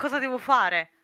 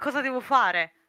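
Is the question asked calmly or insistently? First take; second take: insistently; insistently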